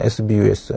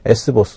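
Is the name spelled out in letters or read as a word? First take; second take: letters; word. First: The name is spelled out letter by letter. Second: The name is read as S plus bus. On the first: "혹은 에스비유에스 이렇게 부르셔도 무관합니다만" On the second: "S버스 혹은 에스비유에스 이렇게 부르셔도 무관합니다만"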